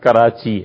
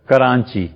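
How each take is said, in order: First: No nasal sound comes before the ch. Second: A nasal n sound comes before the ch. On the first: The speaker calls it right. "وہ لفظ کراچی ہے" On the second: The speaker calls it wrong. "حالانکہ وہ لفظ کراچی ہے"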